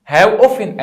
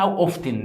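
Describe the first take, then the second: First: أوفن said with no T, as "offen"; silent T in often. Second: أوفتن said with an audible T, as "off-ten"; T sounded in often. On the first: Shown as a demonstration. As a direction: drop the T completely in أوفن. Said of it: "التي دي سايلنت". (نطق أوفن من غير صوت التاء) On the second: Acted. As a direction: pronounce the T in the middle of أوفتن. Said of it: "بتنطقها غلط ليه يا مستر". (نطق أوفتن بتاء مسموعة)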